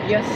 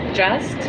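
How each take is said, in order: First: The word starts with a Y sound. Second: The word starts with a J sound. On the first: The speaker calls it wrong. "they pronounce like a Y" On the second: The speaker calls it right. "they say not just"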